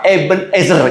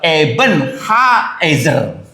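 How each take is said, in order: First: It is said as one word without 'ha'. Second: It is said as two words with 'ha'. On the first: The speaker calls it wrong. "itu salah" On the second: The speaker calls it right. "Terjemahan yang betul adalah"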